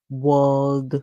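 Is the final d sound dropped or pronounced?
pronounced. The word ends with a clear d sound. "the British would say world"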